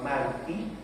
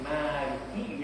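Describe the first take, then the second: First: The first vowel is kept short. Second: The first vowel is drawn out long. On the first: The king. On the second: The one who rules over all. "yang merajai"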